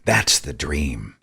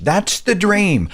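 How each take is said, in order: First: Low, slow, flat sarcasm; deadpan the dream, lower and softer; dry sarcasm. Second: High, slow, starry-eyed mockery; mock grateful dreamer. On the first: Real, not acted. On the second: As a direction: play the naive dupe, pitched up. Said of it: "those being crushed are like".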